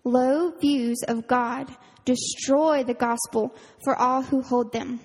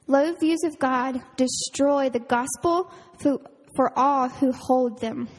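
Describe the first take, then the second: First: Slow and even, leaning on "destroy"; repeated with emphasis. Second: A quote read aloud with gravity; slow quote reading. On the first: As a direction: repeat it slowly, stressing "destroy". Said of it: "I'm gonna repeat that". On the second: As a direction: read slowly, weighing each word. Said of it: "So it says". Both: Shown as a demonstration.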